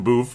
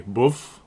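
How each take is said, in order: First: "Boof" with a long oo; own mispronunciation. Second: "Boof" with a short vowel; local pronunciation. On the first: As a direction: say "Boof" to rhyme with roof. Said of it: "but it's actually Boof". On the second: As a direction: shorten the oo in "Boof", nearer to "buff". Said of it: "That's how they say it there". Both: Shown as a demonstration.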